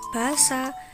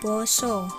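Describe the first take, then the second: First: The vowels sound like an open a. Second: The vowels sound like a rounded o. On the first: This is how the word is written. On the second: This is how the word is actually read. "nanging wacane"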